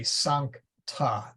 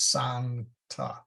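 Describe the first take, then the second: First: "sancta" slowly as sank, ta; misprinted split. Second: "sancta" slowly as san, kta; correct split. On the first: Teacher quoting misprinted chant books, wrong split. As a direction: pause after the k in "sancta": sank-ta. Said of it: "That's not true". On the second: Teacher correcting chant book misprints, split after n. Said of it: "It is sancta". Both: Shown as a demonstration.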